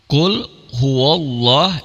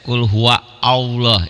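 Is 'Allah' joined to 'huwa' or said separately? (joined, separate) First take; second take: joined; separate. First: Huwa runs straight into Allah without a break. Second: Allah starts with its own separate vowel onset. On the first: The speaker calls it right. "kalau disambung nggak bunyi" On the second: The speaker calls it wrong. "Ada yang juga baca qul huwa Allah"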